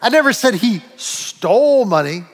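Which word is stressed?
stole. The stress is on "stole".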